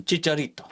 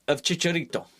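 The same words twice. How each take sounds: First: Said in the usual way. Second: Put-on Chicharito said the Spanish way, a light Mexican Spanish accent. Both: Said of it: "I don't know why I did the accent then".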